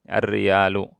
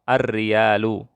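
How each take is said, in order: Both takes have the same delivery.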